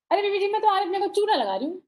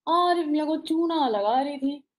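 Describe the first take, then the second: First: Fast, high, chirpy chatterbox; high and quick, playful maid's line; bubbly fast chatter. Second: Unhurried, chewed-over line; lightly imitated measured poet; Gulzar's slow reading. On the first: Acted. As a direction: rattle it off like an excitable maid. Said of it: "Chulbuli सी". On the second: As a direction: read it slowly with pauses. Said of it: "फिर उन्होंने मुझे पढ़ के सुनाया".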